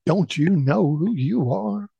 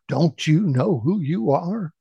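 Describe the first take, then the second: First: High, wavering echo. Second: Loud questioning call. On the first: Valley echoes the boy's question, high wavering echo. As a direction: sing the question back like an echo. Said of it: "The voice echoed back". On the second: Son asks the unseen voice again, calling out. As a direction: call the question out across a valley. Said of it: "in a loud voice, asked again". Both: A narrator's reading.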